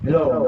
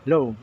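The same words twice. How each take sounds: First: The voice is amplified with echo added. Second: The voice is not amplified and has no echo. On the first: "balik natin mic volume. ... may echo na" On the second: "Tanggalin natin itong pinaka mic volume. ... nawala"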